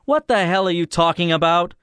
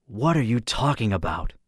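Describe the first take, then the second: First: Loud, high-pitched indignant outburst; sudden angry interruption. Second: Understated contemptuous question; contemptuous music. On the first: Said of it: "I cut in suddenly". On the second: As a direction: ask it with controlled, lilting scorn. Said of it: "voice was full of contemptuous music". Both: A narrator's reading.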